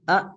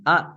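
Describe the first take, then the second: First: The vowel is cut off with a glottal stop. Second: The same.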